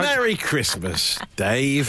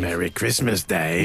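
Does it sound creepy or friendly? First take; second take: friendly; creepy. First: It is said in a friendly way. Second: It is said in a creepy way.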